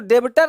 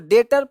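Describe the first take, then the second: First: The b sound is pronounced before the t. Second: The b sound is silent before the t. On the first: The speaker calls it wrong. "इसको डेबटर नहीं पढ़ना है" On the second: The speaker calls it right. "इसको डेटर पढ़ना है"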